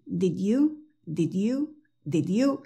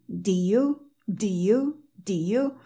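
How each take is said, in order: First: 'Did you' drilled with the D closing Did, rising; D pronounced. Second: 'Do you' as did you minus its closing D; D left out. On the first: Teacher drilling both versions for students, D pronounced. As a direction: softly repeat 'Did you', holding onto the D. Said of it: "entonces di las dos". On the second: Teacher drilling the contrast for students, D left out. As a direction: repeat 'Do you', gliding straight into you with no D. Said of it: "di la sin la D". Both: Shown as a demonstration.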